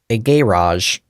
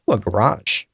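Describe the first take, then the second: First: It is said in a British accent. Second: It is said in an American accent.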